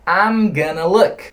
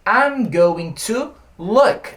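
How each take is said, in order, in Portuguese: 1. 'Going to' é dito rápido, reduzido para 'gonna'. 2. 'Going to' é dito devagar e por extenso.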